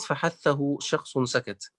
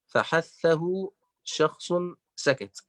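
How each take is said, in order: First: Slow, measured recitation of فحثه شخص سكت; reciting the verse. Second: فحثه شخص drawn out very slowly, each word separated; slower syllabified recital. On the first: (تلاوة بطيئة لبيت فحثه شخص سكت) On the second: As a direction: spell out فحثه شخص at half speed. (نطق فحثه شخص ببطء شديد مقطعًا مقطعًا) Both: Shown as a demonstration. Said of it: "جمعها الإمام ابن الجزري في بيت".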